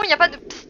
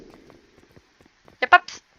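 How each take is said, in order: First: Said in the usual way. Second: Slow breathy psst, drawn out; slow whispered hiss. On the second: Shown as a demonstration. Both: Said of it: "si vous vous posez la question".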